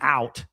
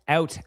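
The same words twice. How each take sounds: First: The word is said with an American vowel. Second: The word is said with a Canadian vowel. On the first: "So how Americans say it" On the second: "I'm saying it Canadian-like"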